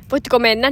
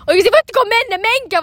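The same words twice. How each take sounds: First: Said in the usual way. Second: High, loud, exasperated yell; raised-pitch retold traffic shout; imitated shouting. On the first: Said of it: "niinku ajatukseni". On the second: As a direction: re-enact yelling at people in the road. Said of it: "mä huuan ihan täysin".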